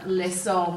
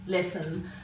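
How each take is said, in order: First: The last syllable has a full, clear vowel. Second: The last syllable has a reduced schwa vowel. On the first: "Rather than saying" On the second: "we're giving that schwat sound again"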